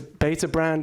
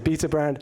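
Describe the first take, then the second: First: Beta is said with an American pronunciation. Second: Beta is said with a non-American pronunciation. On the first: "if I'm pronouncing that in the correct American way" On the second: "my inclination to say Beta Brand"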